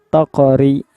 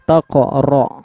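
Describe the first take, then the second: First: The r is pronounced light and thin. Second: The r is pronounced heavy and thick. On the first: "Kalau tipis itu taqori, itu tipis dia" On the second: "Ro tebal"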